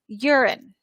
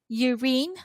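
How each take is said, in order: First: The final vowel is a schwa. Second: The final vowel is a full vowel. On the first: "the last vowel sound is uh, schwa, so let's do the schwa" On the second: "in other other other dictionaries will say urine"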